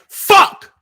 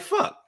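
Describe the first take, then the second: First: The word is said forcefully. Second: The word is said mildly.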